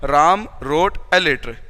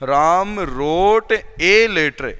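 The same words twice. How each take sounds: First: The article is said quickly and reduced. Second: The article is said fully and slowly. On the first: The speaker calls it right. "रेपिड का मतलब थोड़ा जल्दी पढ़े जाते हैं" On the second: The speaker calls it wrong. "हम ऐसे नहीं पढ़ेंगे"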